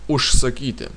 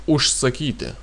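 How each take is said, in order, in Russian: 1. Согласный перед s — глухой ш. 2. Согласный перед s — глухой ш.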